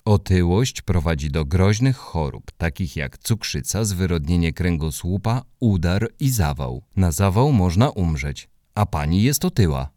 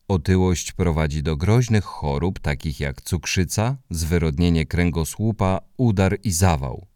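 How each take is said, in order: First: Lightly voiced flat recital; monotone voice. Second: 1 monotone voice. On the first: Hubek repeats the warning to the neighbour in a monotone. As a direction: read it out like a list, no feeling. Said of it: "powiedział to wszystko monotonnym głosem". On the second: Acted. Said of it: "monotonnym głosem".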